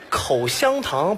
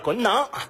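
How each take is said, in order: First: Every syllable is fully and clearly pronounced. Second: The middle syllable is swallowed and the word clipped.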